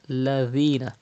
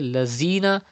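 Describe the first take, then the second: First: The middle consonant is a soft 'th' sound. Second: The middle consonant is a buzzing 'z' sound. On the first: The speaker calls it right. "Dhal is pronounced without whistle softly" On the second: The speaker calls it wrong. "If you say Lazina, that means you are reading Za"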